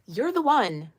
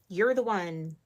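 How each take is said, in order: First: "the" lifted higher and louder in "you're the one"; "the" pressed with rising force; emphatic. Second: Said in the usual way. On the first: Real, not acted. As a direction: lean hard on "the" in "you're the one".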